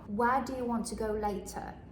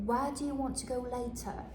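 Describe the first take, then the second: No difference in how they are said.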